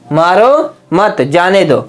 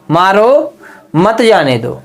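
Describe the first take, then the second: First: There is a pause after मत. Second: There is a pause after मारो.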